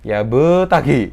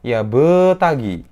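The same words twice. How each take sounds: Both takes have the same delivery.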